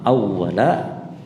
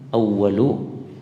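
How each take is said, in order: First: The word ends with an 'a' vowel. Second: The word ends with an 'u' vowel. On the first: The word is in the accusative case. "dengan mempatahkan lam" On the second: The word is in the nominative case. "dengan didommahkan, dirofakkan awwalu"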